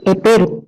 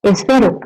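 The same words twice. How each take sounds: First: "epero" with a plain p where "esfero" has sf; patient's sound slip. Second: Said in the usual way. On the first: Shown as a demonstration. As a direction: say "epero", dropping the s and swapping f for p. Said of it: "puede decir epero". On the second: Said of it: "en vez de decir, por ejemplo".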